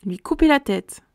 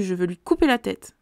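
First: Echoed higher and louder, mock-shocked; amused disbelief. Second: Said in the usual way. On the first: Real, not acted. Reader reacting to the general's threat, higher and louder mock shock. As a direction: repeat it as if you can't believe he said it.

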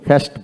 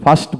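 First: ফাস্ট with front "e", "faest"; rejected pronunciation. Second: ফাস্ট with open "aa", "faast"; preferred pronunciation. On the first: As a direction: say ফাস্ট as "fest". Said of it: "ফাস্ট বলি না". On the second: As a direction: say ফাস্ট with a long "ah". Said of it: "ফাস্ট বলি". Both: Shown as a demonstration.

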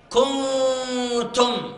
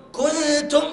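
First: كنتم slow, with the nun fully hidden in a nasal hum; correct ikhfa. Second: كنتم with the nun sounded clearly; wrong, nun shown. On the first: Teacher contrasting right and wrong for the class. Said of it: "ليس كنتم". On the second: Teacher imitating the students' mistake. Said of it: "النون تظهر". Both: Shown as a demonstration.

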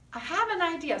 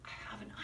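First: Said in the usual way. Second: Fast unvoiced whisper; teacher whispers before saying it aloud. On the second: Shown as a demonstration. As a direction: whisper the idea like a secret. Whispered then repeated aloud.

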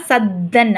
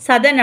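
First: சத்தன் with a long, doubled த்த; pressed double consonant. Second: சதன் with a short single த; light "sa-dan" for சதன், no held consonant; undoubled consonant. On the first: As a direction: press hard on the middle of சத்தன், "sad-dan". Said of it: "ஷத்து கொடுத்துருக்கனால". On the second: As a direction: say சதன் quickly, no press in the middle. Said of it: "படிச்சீங்கன்னா அது தப்பு". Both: Shown as a demonstration.

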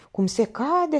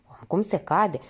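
First: "cum se cade" repeated higher with weight on "cade"; second "cum se cade" lifted and stressed; emphatic repeat. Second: Said in the usual way. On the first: Acted.

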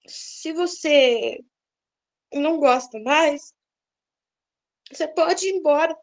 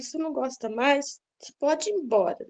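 First: Slow, gentle and unhurried, at peace; peaceful, calm. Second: Said in the usual way. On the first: Retold or imitated. Wife calmly telling her husband he may leave, slow and peaceful. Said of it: "falei isso com tanta paz no coração". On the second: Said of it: "Aí eu falei pra ele".

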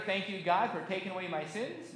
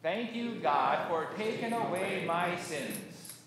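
First: Said in the usual way. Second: Slow, spaced-out thanksgiving; congregational recitation. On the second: Shown as a demonstration. Pastor leading congregation's thanks to God, slow recitation. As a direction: lead a group word by word, unhurried. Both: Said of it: "let's say together".

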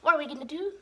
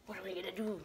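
First: Said in the usual way. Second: Very soft and low; quiet, low aside; hushed question. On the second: Real, not acted. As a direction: murmur the question to yourself. Repeats question quietly, then aloud.

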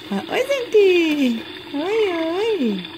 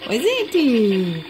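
First: Put-on speaking for the baby, high and cooing; high baby voice for the daughter. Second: Said in the usual way. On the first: Mother speaks for baby greeting viewers, high cooing baby voice. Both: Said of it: "ela tá, fala oi".

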